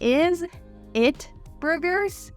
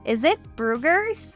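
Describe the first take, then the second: First: Each word is said separately and clearly. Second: The words blend together with a z sound. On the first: The speaker calls it wrong. "instead of saying" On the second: The speaker calls it right. "It really blends together and you hear that Z sound"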